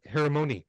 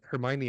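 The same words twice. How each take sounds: First: The name is sounded out as it is spelled. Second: The name is said in its usual spoken form. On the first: This is how the reader guessed it from print. The speaker calls it wrong. "phonetically, ... for the longest time I called her her like Hermione" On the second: This is how it is said in the film. The speaker calls it right. "they're like Hermione, I'm like, that's how you say it"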